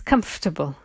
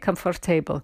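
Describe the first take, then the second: First: It is pronounced shorter than its spelling suggests. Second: Every syllable is pronounced as it is spelled. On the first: The speaker calls it right. "Pronunciation is comfortable" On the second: The speaker calls it wrong. "they say comfortable, because of the spelling"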